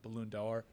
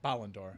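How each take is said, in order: First: The first word sounds like English 'balloon'. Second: The first word sounds like French 'ballon'. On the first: The speaker calls it wrong. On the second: The speaker calls it right.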